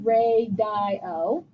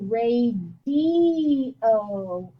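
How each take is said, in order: First: The middle vowel sounds like 'eye'. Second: The middle vowel sounds like 'ee'. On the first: The speaker calls it wrong. "But I don't say" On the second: The speaker calls it right. "I say ... the I sounds like an E"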